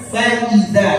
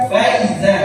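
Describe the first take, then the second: First: "faiza" with fa and i kept apart; correct reading. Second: "faiza" with fa and i run together; wrong reading demo. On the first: Teacher compares with the earlier word, careful "faiza" as fa-i-zaa. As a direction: say "faiza" as fa-i-zaa, long ending. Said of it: "Sama kayak tadi". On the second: Teacher warns students off this reading, "faiza" run together as fai-za. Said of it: "Jangan dibaca faiza". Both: Shown as a demonstration.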